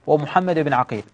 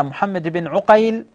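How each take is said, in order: First: عقيل said Aqil, with a and long i; father's name as Aqil. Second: عقيل said Uqayl, with u and ay; father's name as Uqayl. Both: Shown as a demonstration. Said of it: "نطق الآباء".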